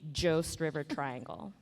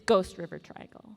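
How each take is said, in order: First: The first word begins with a soft J-like sound. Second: The first word begins with a hard G sound. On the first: The speaker calls it wrong. "we don't say Jost River Triangle" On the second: The speaker calls it right. "It's Ghost River Triangle"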